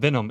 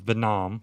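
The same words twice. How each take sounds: First: The first vowel sounds like 'eh'. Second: The first vowel sounds like 'ih'. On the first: This is the usual name. The speaker calls it right. "Instead of Venom" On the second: Someone else said it this way. The speaker calls it wrong. "It was V I N O M"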